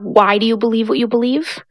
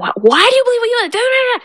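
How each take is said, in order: First: It is asked calmly, as a plain question. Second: It is asked forcefully, as a demand.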